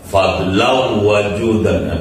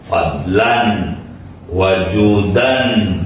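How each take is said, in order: First: The final n merges into the following w. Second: The final n is kept, then a slight break. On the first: The speaker calls it wrong. "pakai tajwid" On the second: The speaker calls it right. "ini bukan tajwid, ilmu arud"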